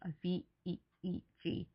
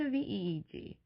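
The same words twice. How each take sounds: First: The letters are said slowly. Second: The letters are said quickly. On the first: "I said it a little slower" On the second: "I know I said that really fast"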